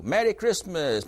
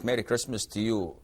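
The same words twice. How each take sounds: First: The greeting, pitched higher, lightly acted; voicing a neighbor's greeting. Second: Lower, softer reply to the greeting; voicing the forbidden reply. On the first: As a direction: call out the greeting a touch higher. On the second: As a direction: answer back lower and quieter. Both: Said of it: "we don't say it back".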